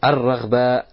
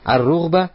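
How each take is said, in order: First: The vowel after 'r' is an 'a'. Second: The vowel after 'r' is a 'u'. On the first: "если произносишь длинным образом... фатханат ра" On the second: "в форме укороченной"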